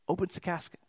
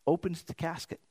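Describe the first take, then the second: No difference in how they are said.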